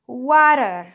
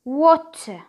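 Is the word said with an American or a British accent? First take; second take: American; British. First: It has an American accent with a flapped t. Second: It has a British accent with a clear t. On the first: "الامريكان اكسنت بتاعت الورد دي بتقول water او water" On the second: "البريتش اكسنت بتاع الورد بيقول لنا ان هي بتتنطق as a water"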